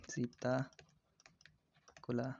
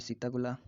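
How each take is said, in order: First: सीताकुला stretched out part by part; slow dictation. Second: Said in the usual way. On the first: Shown as a demonstration. Teacher repeats a bird's name for students, very slowly. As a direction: break सीताकुला into long, separate pieces.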